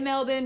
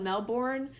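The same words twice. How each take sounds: First: It is said the way Australians pronounce it. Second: It is said closer to how it is spelled. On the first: "that's how they say it in Australia" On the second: "I know it's spelled Melbourne"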